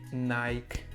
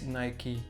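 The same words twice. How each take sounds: First: It is said with the Dutch pronunciation. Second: It is said with the English pronunciation. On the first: This is how people say it locally. The speaker calls it wrong. "here in the Netherlands we say Nike" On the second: This is the corrected, proper name. The speaker calls it right. "it is Nike"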